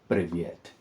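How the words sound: It is said with a Russian accent. "in Russian, with a Russian accent"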